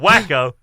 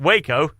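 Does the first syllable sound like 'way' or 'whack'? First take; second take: whack; way. First: The first syllable sounds like 'whack'. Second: The first syllable sounds like 'way'. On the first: It calls to mind crazy people. "or Wacko, eh, crazies" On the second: It calls to mind a deadly cult siege. "either pick Waco, eh, cult, everybody died"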